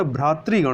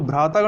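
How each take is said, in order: First: भ्रातृगण with "tri" in the middle; correct form. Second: भ्रातागण with long aa after t; wrong form. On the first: Teacher corrects for learners, भ्रातृगण with "tri". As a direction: say भ्रातृगण as "bhratri-gan". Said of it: "भ्रातृगण होता है". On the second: Teacher rejects the error, भ्रातागण with "taa". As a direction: say भ्रातागण as "bhrataa-gan". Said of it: "भ्रातागण नहीं होता". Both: Shown as a demonstration.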